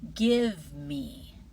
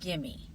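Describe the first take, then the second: First: Both words are pronounced fully and separately. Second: The words are blended into one short form.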